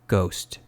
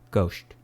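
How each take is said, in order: First: The final S sound is crisp and clear. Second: The final S sound is muffled and lisped. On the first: The speaker calls it right. "This is the natural way to say ghost" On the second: The speaker calls it wrong. "this is how the L one thousand presents it"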